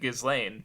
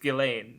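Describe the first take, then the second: First: The S sound is pronounced. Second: The S sound is silent. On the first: The speaker calls it wrong. "I would have just read it Ghislaine" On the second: The speaker calls it right. "the S is silent"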